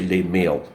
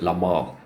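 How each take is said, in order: First: The name is pronounced the English way. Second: The name is pronounced the French way. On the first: "I'll just say Les Mail because I don't know French" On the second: "I know the French pronounce it La Malle"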